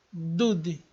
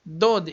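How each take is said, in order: First: Dude com u no lugar de o; wrong dude. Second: Dode devagar, com o fechado; correct dode. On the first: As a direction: say dude with a u sound. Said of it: "e não dude". (pronúncia errada dude) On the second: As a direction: say dode slowly with an o. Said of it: "na palavra dode". (pronúncia correta dode) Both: Shown as a demonstration.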